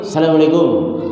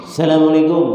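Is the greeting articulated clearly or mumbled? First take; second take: mumbled; mumbled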